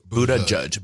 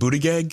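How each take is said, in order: First: The name begins like 'Buddha'. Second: The name does not begin like 'Buddha'. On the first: The speaker calls it right. "So it was Buddha Judge. Like Buddha" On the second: The speaker calls it wrong. "I thought it was like Buttigieg"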